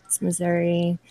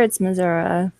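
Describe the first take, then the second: First: Missouri ending in a clear "ee"; outsider's pronunciation. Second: Missouri ending in a relaxed "uh"; local pronunciation. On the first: Guest explains how non-natives say it, Missouri ending in "ee". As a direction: say Missouri as "mih-ZUR-ee". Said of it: "If you're not". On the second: Guest explains how natives say it, Missouri ending in "uh". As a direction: say Missouri as "muh-ZUR-uh". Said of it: "If you're raised there". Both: Shown as a demonstration.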